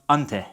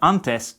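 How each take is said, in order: First: The final s is dropped or breathed away. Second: The word ends with a clear s sound.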